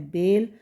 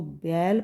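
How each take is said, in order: First: बेल with a long close 'e', "bel"; close e vowel. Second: बैल with an open 'ai', "bail"; open ai vowel. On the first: (बेल को बंद 'ए' से बोलें) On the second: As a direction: widen the vowel of बैल, unlike "bel". (बैल को खुले 'ऐ' से बोलें) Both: Shown as a demonstration. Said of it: "अगर हम इसको बैल पढ़ देंगे".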